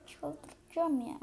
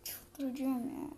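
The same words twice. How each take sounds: First: Slow drawn-out voiced groan, higher; slow exasperated moan, pitch up. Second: Slow whispered groan of exasperation; exasperated slow whisper. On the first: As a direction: let the frustration out slowly on çıldıracağım. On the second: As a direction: breathe it out slowly, no voice. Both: Real, not acted.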